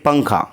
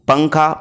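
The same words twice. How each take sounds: Both takes have the same delivery.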